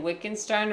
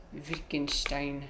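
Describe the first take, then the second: First: Said in the usual way. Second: "Wittgenstein" slow and soft in a German accent; German pronunciation. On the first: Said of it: "do you be saying Wittgenstein or". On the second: Shown as a demonstration. Player attempting the real German pronunciation, German accent. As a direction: sound out "Wittgenstein" slowly the German way. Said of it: "he's saying the real German pronunciation".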